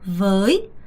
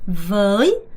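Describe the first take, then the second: No difference in how they are said.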